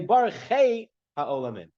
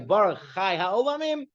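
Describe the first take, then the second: First: The middle word is said 'chay', as in 'day'. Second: The middle word is said 'chai', as in 'eye'.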